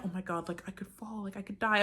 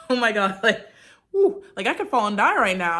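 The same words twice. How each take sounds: First: Hushed mock-scared gasp at the drop; softer, frightened take. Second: Amused daredevil take; giddy thrill. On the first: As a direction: breathe it like the fall could really kill you. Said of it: "I wasn't like". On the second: Pretend. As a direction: play the fall like a fun joke. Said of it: "I was just more like".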